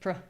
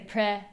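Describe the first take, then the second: First: The syllable has a reduced, unclear vowel. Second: The syllable has a full, clear vowel. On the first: The speaker calls it right. "we say pr" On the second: The speaker calls it wrong. "we don't want to say pre"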